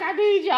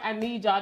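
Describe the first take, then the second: First: Higher, louder, pleading cry of I need y'all; crying plea. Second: Said in the usual way. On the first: Retold or imitated. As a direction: beg the prayer group, voice near tears. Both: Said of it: "I was crying".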